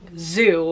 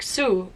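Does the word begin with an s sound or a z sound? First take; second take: z sound; s sound. First: It begins with a buzzing z sound. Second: It begins with a hissing s sound. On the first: "the Z in English is a very hard Z" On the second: "German speakers tend to pronounce it like an S"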